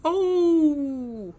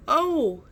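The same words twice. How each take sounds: First: High, loud groan from the bush; a pained groan from hiding; groaning cry. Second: High, loud pained groan; louder groan. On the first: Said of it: "shook the bush". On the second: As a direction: let the groan burst out much louder. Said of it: "but much louder this time". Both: A narrator's reading.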